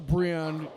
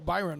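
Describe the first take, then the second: First: The name is said like Brian. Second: The name is said like Byron. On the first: The speaker calls it wrong. "I don't want to say Brian" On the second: The speaker calls it right. "Byron, I believe, is uh, the correct pronunciation"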